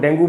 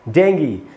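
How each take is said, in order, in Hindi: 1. शब्द oo ध्वनि पर खत्म होता है। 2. शब्द ee ध्वनि पर खत्म होता है। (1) "ये इसका एकदम ही गलत उच्चारण है" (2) "इसका शुद्ध उच्चारण है"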